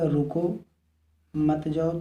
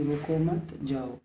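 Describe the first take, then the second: First: रुको, a clear pause, then मत जाओ run together; pause after रुको. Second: रुको मत together, a short break, then जाओ; pause after मत. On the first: Teacher showing the class where the comma falls, pause after रुको. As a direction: stop after रुको before saying मत जाओ. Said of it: "तो विराम चिन्ह यहाँ पे लगा है". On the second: Teacher showing how the comma changes meaning, pause after मत. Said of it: "यहाँ मत के बाद विराम चिन्ह लगा है". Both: Shown as a demonstration.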